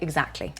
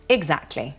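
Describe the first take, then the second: First: The word is said quickly and reduced. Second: The word is said slowly and fully.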